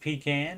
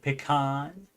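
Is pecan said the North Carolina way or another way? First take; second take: North Carolina; other. First: Pecan is said the North Carolina way. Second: Pecan is said the non-North Carolina way. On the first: "that's how they say it there. So I almost said pecan" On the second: "instead of pecan"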